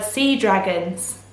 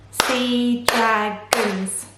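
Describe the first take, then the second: First: Said in the usual way. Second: "Sea dragons" very slowly in three beats, sea, dra, gons; split into syllables. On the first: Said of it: "chunks of sound that make up". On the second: Shown as a demonstration. Teacher counting three syllables, "Sea dragons" slowly broken up. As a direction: stretch and separate each syllable of "Sea dragons". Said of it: "Sea dragons have three syllables".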